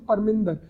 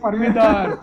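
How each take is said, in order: First: A nasal n sound comes before the d. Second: No nasal n sound comes before the d. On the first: The speaker calls it right. "परमिंदर में ऊपर बिंदी लगती है, so you pronounce it परमिंदर" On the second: The speaker calls it wrong. "Himanshu वो बिंदी कभी pronounce नहीं करता था"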